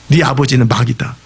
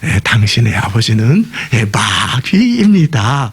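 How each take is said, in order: First: It is said in a blunt, harsh way. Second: It is said in a soft, gentle way.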